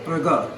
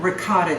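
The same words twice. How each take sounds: First: Ricotta with a light Italian lilt, rolled r and crisp double t; a hint of an Italian ricotta; Italian-style ricotta. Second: Said in the usual way. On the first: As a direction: say ricotta the way Italian friends do, ri-COT-ta. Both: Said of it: "or as my Italian friends say".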